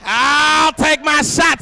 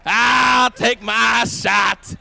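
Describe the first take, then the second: First: Slow, loud drawn-out boast; stretched-out taunt; mock challenge. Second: Slower taunt; mock challenge. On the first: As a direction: call it out like a cocky fighter. Bold challenge shouted. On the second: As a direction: drag each word out as a dare.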